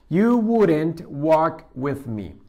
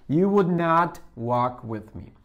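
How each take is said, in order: First: Would and not are merged into one short word. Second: Would and not are said as two full words.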